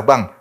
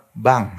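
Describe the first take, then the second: First: Curt, rough "Bang"; harsh. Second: Gentle. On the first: Preacher showing wives the wrong way, rough "Bang". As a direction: say "Bang" bluntly, without softness. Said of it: "jangan kasar". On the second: Preacher showing wives the right way, gentle "Bang". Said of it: "harus halus". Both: Shown as a demonstration.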